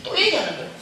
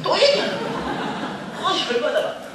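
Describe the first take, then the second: First: Said in the usual way. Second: Much higher, laughing disbelief; exasperated high whine. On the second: Real, not acted. Speaker retelling mother repeating herself, high exasperated laugh. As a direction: squeal it out, fed up and laughing.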